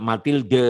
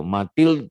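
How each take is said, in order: First: Mathilde said as ma-til-da, with a full final a vowel; wrong pronunciation. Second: Mathilde said as ma-tild, with only a faint final d; correct French pronunciation. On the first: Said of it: "bacanya nggak kayak gitu". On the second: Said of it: "dia tipis de-nya itu". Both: Shown as a demonstration.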